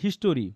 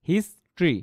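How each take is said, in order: First: The word is said with three syllables. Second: The word is said with two syllables. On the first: The speaker calls it wrong. "অনেকে কিন্তু বলে ... হিস্টোরি টোরি বলে" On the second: The speaker calls it right. "দুইটা সিলেবলের word"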